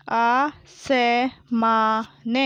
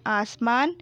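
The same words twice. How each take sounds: First: आसमान drawn out as aa, sa, maa, na; very slow आसमान, each letter held apart; spelled out. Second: Said in the usual way. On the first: Shown as a demonstration. Teacher sounding out आसमान for pupils, syllable by syllable. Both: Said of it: "मैंने इस तरीके से पढ़ा".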